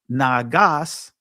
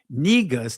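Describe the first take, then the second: First: The word is said with two a vowels. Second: The word is said with e and u vowels. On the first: This is the ancient Ge'ez form. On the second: This is the later Amharic form.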